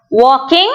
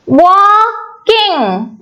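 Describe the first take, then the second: First: Said in the usual way. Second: "Walking" drawn out as wal-king; split into syllables. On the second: Shown as a demonstration. Teacher showing where walking splits, "Walking" split syllable by syllable. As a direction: say "Walking" in two separated, lengthened syllables. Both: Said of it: "We are splitting it into two".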